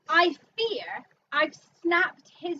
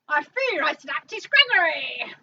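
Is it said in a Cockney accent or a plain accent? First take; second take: plain; Cockney. First: It is said in the speaker's ordinary accent. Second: It is said in a put-on Cockney accent.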